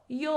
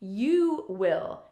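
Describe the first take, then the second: First: You and will merge into one syllable. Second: You and will are said as two full words. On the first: "we often contract the subject and will" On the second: "the complete form as I just said them"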